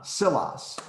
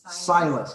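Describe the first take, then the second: First: The first vowel is short. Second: The first vowel is long. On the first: This is the accurate original pronunciation. The speaker calls it right. "would be accurate" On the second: This is the common anglicized pronunciation. The speaker calls it wrong. "we butcher it and we say"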